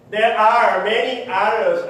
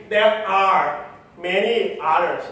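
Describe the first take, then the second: First: "others" with its final S emphasized, slow and deliberate; slow, emphatic "There are many others", marking the S of "others"; stress on final S. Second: Said in the usual way. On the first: Shown as a demonstration. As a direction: lean on the plural S in "others", spoken louder. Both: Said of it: "emphasizing the S right now".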